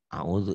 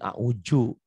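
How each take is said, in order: First: The middle consonant is a dz sound. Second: The middle consonant is a j sound. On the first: This is how someone who has studied says it. "kalau belajar" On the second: This is how Betawi speakers say it. "orang Betawi"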